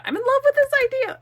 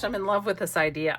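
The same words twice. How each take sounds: First: Much higher, louder and faster burst of delight; high, rushed, loud enthusiasm; excited gushing. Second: Said in the usual way. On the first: Real, not acted. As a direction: gush it out, carried away by the idea. Repeats it, carried away.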